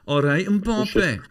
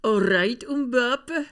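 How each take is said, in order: First: Put-on slow, high, loud Scottish-accented "all right, Mbappe". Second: Scottish accent. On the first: Greeting Jack on the phone in a Scottish accent, high and slow. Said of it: "I find it difficult not to say". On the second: Shown as a demonstration. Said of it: "Do it".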